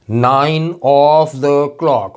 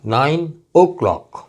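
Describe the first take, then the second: First: "nine of the clock" slowly, every word stretched; full uncontracted form. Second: "nine o'clock" with only an o before clock; slow "nine", then o'clock run together; contracted form. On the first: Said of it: "ये पूरा हटा दिया". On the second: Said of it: "सिर्फ ओ रह गया". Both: Shown as a demonstration.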